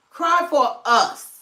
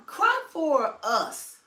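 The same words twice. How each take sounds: First: High, slow and louder mock wail; mock crying plea, louder. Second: High and slow, dragged-out whine; mock crying plea. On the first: Mocking the senator's tears to viewers, loud slow wail. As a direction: wail it out in mockery. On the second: Mocking the senator's tears to viewers, high slow whine. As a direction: drag it out like a fake sob. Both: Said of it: "She act like she gonna cry".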